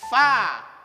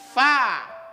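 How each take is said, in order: Both takes have the same delivery.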